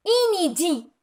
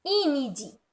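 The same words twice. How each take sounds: First: "inédit" said as i-né-dit, in- with the vowel not nasal; prefix read as in. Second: "inédit" read again as i-né-dit, no nasal on in-; prefix read as in. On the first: Teacher to young pupils, showing how "inédit" is read clearly. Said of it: "Je dis inédit". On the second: Teacher reading the example word back to pupils, softly spelled out. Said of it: "Je lis". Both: Shown as a demonstration.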